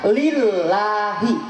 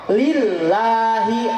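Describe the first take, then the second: Both takes have the same delivery.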